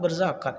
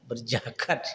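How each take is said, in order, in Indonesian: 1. Konsonan tengahnya bunyi z. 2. Konsonan tengahnya bunyi j.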